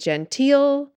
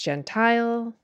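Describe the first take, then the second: First: The last syllable sounds like 'teel'. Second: The last syllable sounds like 'tile'. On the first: The speaker calls it wrong. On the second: The speaker calls it right. "It's pronounced Gentile"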